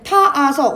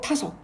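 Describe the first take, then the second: First: The vowel is doubled, giving three syllables. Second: The vowels merge, giving two syllables. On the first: The speaker calls it wrong. "우리가 이렇게 발음 안 하고" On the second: The speaker calls it right. "이렇게 발음하죠"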